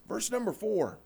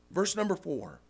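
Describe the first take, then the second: No difference in how they are said.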